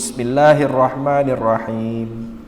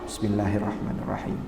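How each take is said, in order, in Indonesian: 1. Frasa ini diucapkan dengan keras, suaranya terdengar jelas. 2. Frasa ini diucapkan pelan, hampir seperti berbisik. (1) "bismillahnya ya jahar lah ya" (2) "sir, pelan-pelan"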